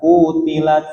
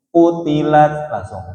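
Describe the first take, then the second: First: Qutilat with the ku stretched long; drawn-out ku. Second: Qutilat with a short ku, moving straight on. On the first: Teacher mimics the student's overlong ku. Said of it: "Jangan mampir dulu sama mat tabi'inya". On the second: Teacher models the short ku for his student. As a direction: say qutilat with a clipped first syllable. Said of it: "kunya jangan panjang dulu". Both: Shown as a demonstration.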